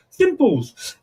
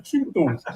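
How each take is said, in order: First: High chirpy meerkat catchphrase. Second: Meerkat voice. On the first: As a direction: squeak it like the advert meerkat. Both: Retold or imitated. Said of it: "was that your Meerkat impression then?".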